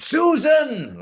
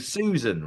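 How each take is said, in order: First: Much higher, much louder Doctor Who bellow; demonstrated Susan cry, far higher and louder; William Hartnell shout. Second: Said in the usual way. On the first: Shown as a demonstration. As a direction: belt out Susan in a high, loud Hartnell voice. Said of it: "Like this, okay?". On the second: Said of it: "I shouted".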